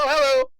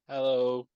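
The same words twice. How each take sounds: First: It is said in a higher-pitched voice. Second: It is said in a normal voice.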